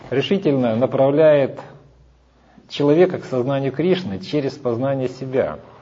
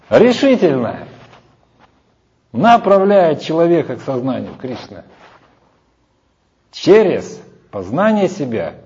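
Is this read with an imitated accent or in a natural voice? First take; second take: natural voice; imitated accent. First: It is read in the speaker's ordinary natural voice. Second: It is read imitating another person's accent and manner.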